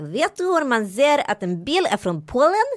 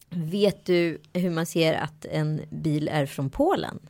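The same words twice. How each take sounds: First: It is spoken with an imitated Polish accent. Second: It is spoken in an ordinary Swedish accent.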